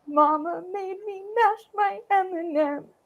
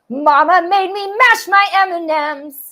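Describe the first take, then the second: First: The voice sounds sad. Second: The voice sounds angry. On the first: "I could also be really sad about it" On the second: "I could also be really angry"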